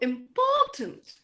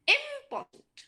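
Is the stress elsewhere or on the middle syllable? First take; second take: middle; elsewhere. First: The stress is on the middle syllable. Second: The stress is not on the middle syllable. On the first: The speaker calls it right. "Which one is more stressed? The middle one" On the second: The speaker calls it wrong. "not important"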